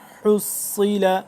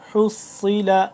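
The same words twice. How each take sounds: Both takes have the same delivery.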